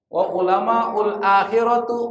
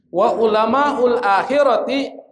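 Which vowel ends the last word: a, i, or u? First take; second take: u; i. First: The last word ends in a u vowel. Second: The last word ends in an i vowel. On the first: The speaker calls it wrong. "Salah bacanya" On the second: The speaker calls it right. "kenapa dibaca ti kasrah?"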